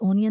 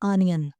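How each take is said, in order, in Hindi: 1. शब्द 'o' स्वर से शुरू होता है। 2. शब्द 'aa' स्वर से शुरू होता है। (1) "ओनियन नहीं बोलना" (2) "इसे बोलना है आनियन"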